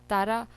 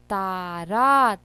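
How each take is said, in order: First: Said in the usual way. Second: तारा very slowly, both "aa" vowels stretched; sounded out. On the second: Shown as a demonstration. Teacher checking vowel signs for children, तारा slow in syllables. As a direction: break तारा into long ता and रा. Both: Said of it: "में no ई मात्रा".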